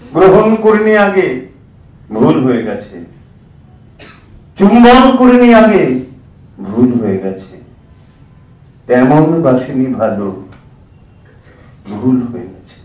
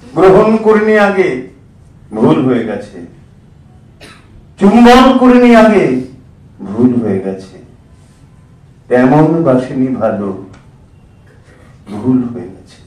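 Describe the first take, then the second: First: It is declaimed smoothly like a stage recitation. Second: It is declaimed smoothly like a stage recitation.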